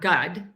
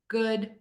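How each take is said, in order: First: The vowel is said with fully relaxed lips. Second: The vowel is said with slightly rounded lips. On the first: The speaker calls it wrong. "my mouth is not completely relaxed. It's not gud" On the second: The speaker calls it right. "It's in the middle, slightly rounded"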